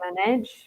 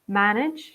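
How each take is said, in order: First: The stress is on the second syllable. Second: The stress is on the first syllable. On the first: The speaker calls it wrong. "a lot of students say manage" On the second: The speaker calls it right. "the stress must be in the first syllable"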